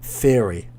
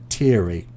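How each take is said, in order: First: It begins with a soft th sound. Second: It begins with a hard t sound. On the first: The speaker calls it right. "it's a th th th sound" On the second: The speaker calls it wrong. "you're saying theory. It's more of a t t t"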